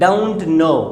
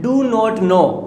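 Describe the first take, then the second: First: Do not is contracted to don't. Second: Do not is said as two full words.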